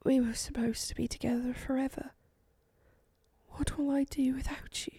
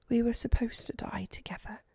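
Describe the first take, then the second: First: Soft, higher whisper of grief; barely audible whisper. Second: Soft grieving whisper; murmured whisper. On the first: Eleonora at her dying husband's side, whispering. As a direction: breathe it out heartbroken. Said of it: "The whisper ... was barely audible". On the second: Eleonora beside her dying husband, whispered. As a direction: whisper it to him like a vow. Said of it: "she murmured". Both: A narrator's reading.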